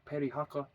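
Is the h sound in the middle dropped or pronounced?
pronounced. The h sound in the middle is pronounced. This is the usual pronunciation. "they don't say uh, like the uh"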